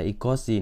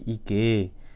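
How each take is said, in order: First: All three syllables are said in full. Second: It is shortened to two syllables. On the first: This is the form used in writing. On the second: This is the form used in conversation.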